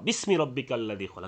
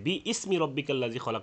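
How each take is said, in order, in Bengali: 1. শব্দগুলো হামজা ছাড়াই একসাথে যুক্ত হয়ে পড়া হয়। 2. 'bi' আর 'ismi'-এর মাঝে একটি হামজা (গ্লটাল স্টপ) আলাদা করে। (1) "এই যেমন আমরা দেখি" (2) "আমরা এখানে ... বলি না"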